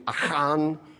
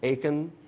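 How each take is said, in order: First: It is said with a rough throaty aspirate sound. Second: It is said with a plain English k sound. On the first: "There'd be an aspirate in there" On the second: "that's the anglicized pronunciation"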